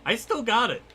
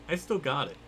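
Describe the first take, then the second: First: High-pitched proud nerd; nerdy voice. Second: Said in the usual way. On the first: Pretend. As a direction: squeak it out smugly. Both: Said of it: "done the nerdy voice".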